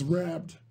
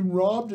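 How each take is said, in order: First: "rabbed" with a big Michigan A for robbed; flat Michigan "rabbed"; Michigan accent. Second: Said in the usual way. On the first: Shown as a demonstration. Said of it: "You have a big loud A". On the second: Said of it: "if you're robbed, it's".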